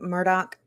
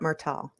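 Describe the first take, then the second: First: The middle consonant is a 'd' sound. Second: The middle consonant is a 't' sound. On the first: The speaker calls it right. "it's Murdoch apparently" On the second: The speaker calls it wrong. "I just know it's not Murtaugh"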